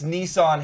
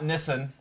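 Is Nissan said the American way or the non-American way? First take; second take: American; non-American. First: The name is said the American way. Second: The name is said the non-American way. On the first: This is how it is said in the States. "it's Nissan here" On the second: This is how it is said in other parts of the world. "not Nissan"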